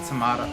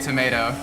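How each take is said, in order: First: The middle vowel is a broad British 'ah'. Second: The middle vowel is an American 'ay'. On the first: "It's called a tomato" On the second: "I still say tomato. Because America is the only way to pronounce things"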